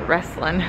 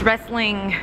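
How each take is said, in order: First: The word ends without the final g sound. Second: The word ends with a clear final g sound. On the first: The speaker calls it wrong. "I hate it when you call it wrestling" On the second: The speaker calls it right. "There's a G on the end"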